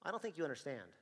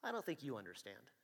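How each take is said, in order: First: Stern, level correction; officer warning the shoplifter; firm warning. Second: Soft, deadpan echo of the warning; quiet flat echo. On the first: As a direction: put him straight, firmly. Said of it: "And I go". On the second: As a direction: throw his words back at him quietly. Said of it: "And he says". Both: Retold or imitated.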